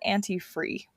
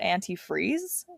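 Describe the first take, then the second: First: The word ends without its final z sound. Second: The word ends with its final z sound. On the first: "she doesn't pronounce the last sound of the word" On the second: "she doesn't call it antifreeze"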